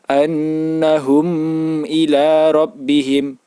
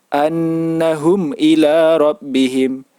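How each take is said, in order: No difference in how they are said.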